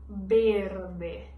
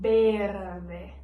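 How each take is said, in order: First: The word begins with a b sound. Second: The same.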